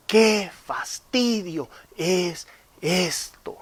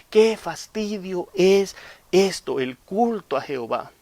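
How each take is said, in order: First: Drawn-out bored groan, slow; long-suffering whine; weary sigh. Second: Slow, drawn-out fed-up sigh; bored groan, higher; weary whine. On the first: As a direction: sigh it like a fed-up churchgoer. People's bored complaint voiced. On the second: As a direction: drag it out like a bored member. Voicing complaining members. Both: Acted.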